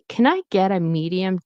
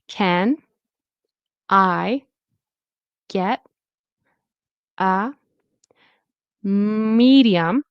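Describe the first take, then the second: First: The words run together with a quick D sound. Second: The words are said separately. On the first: "this turns into a fast D" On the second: "I'll do it separately"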